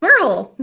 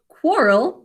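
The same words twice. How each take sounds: First: Quirrell said as kwir-rel with a short i; right name. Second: Quirrell said like quarrel, as kwor-rel; wrong name. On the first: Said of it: "but Quirrell". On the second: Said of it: "not Quirrell". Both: Shown as a demonstration.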